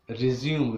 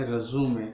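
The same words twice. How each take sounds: First: ریزیوم said "rizium" with the ending cut short; ریزیوم as a two-beat word ending in m; said as resume. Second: ریزیومے said "rezume" with a long final e; ریزیومے in three beats, ending on an open e; said as résumé. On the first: Teacher reads ریزیوم as the verb for to start. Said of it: "ریزیوم کا مطلب ہے". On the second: Teacher gives ریزیومے as the word for a CV. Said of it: "پروننسیٹ کرتے ہیں ریزیومے". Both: Shown as a demonstration.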